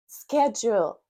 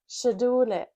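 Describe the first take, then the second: First: The word begins without an 'sh' sound. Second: The word begins with an 'sh' sound. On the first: "instead of schedule" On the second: "they say schedule, sh"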